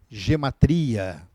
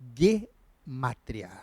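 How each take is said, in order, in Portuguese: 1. A palavra começa com som de J suave. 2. A palavra começa com som de G forte. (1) "essa é a forma mais latinizada de se pronunciar" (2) "a forma como é pronunciado pelos falantes do hebraico"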